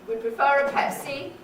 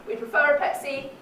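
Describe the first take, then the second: No difference in how they are said.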